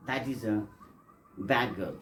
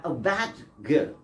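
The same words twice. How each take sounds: First: Bad girl with the D swallowed into G, "bag girl"; bad girl said the natural linked way; assimilated bad girl. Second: Said in the usual way. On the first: Shown as a demonstration. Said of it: "You have to say". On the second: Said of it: "not bad girl".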